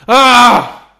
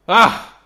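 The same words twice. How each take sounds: First: The scream is loud and dramatic. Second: The scream is mild, not dramatic enough.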